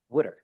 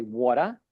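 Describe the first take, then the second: First: Water said the Philadelphia way, WOO-der with a d; South Jersey Philly twang on wooder; mother-in-law's Philly wooder. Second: Water said the New York way, WAW-ter with the t sounded; mother's North Jersey water. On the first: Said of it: "An example would be". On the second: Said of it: "my mother would say". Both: Shown as a demonstration.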